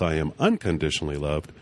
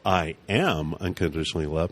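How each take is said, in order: First: The stress is on the word unconditionally. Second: The stress is on the word am.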